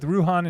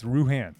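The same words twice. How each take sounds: First: Ruhan with an open "ah" in the second syllable; chosen pronunciation. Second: Ruhan with the second vowel as in "hand"; alternate pronunciation. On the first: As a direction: say Ruhan as "roo-HAHN". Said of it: "I'm going with Ruhan". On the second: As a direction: say Ruhan as "roo-HAN", short a. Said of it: "until you tell me it's Ruhan". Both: Shown as a demonstration.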